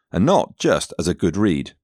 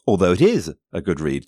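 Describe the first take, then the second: First: Said in the usual way. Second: The word is leaned on, long and firm; emphatic is in it is a good read; stress on IS. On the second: Shown as a demonstration. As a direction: insist on is, as in it truly is. Stress on IS in the follow-up.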